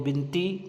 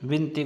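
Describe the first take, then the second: First: The word begins with a b sound. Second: The word begins with a v sound. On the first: The speaker calls it wrong. "अशुद्ध उच्चारण" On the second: The speaker calls it right. "विनती को"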